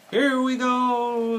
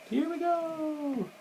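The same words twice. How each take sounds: First: High, loud, drawn-out whoop; excited call. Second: Very high, drawn-out small cry; thin falsetto whoop, held long without volume; mock excited squeal. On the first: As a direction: call it out long as the sled takes off. Frog calls out as sled starts. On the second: Replays Frog's call over the picture. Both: A narrator's reading.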